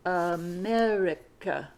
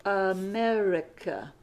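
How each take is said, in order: First: "America" again slowly, low; model word repeat. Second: "America" slowly and clearly; model word. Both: Shown as a demonstration. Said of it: "this last word is".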